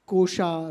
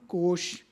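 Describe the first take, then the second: First: The word ends with a final vowel sound. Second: The word ends with a consonant sound. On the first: The speaker calls it wrong. "we are in the process of pronouncing Kosha" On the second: The speaker calls it right. "can we not come back to Kosh"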